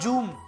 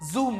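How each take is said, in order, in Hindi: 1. यह शब्द j की आवाज़ से शुरू होता है। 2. यह शब्द भनभनाती z की आवाज़ से शुरू होता है। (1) "नॉट जूम" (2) "जेड, जैसे जूम"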